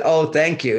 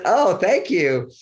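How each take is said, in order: First: Said in the usual way. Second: Charmed thank you. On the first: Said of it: "what I heard very clearly". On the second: Retold or imitated. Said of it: "I've heard that tone of voice".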